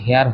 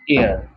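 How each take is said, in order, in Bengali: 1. শব্দটি h ধ্বনি দিয়ে শুরু হয়। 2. শব্দটি স্বরধ্বনি দিয়ে শুরু হয়। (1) "এটার উচ্চারণটা কিন্তু হেয়ার হবে না" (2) "এটার উচ্চারণটা হবে এয়ার"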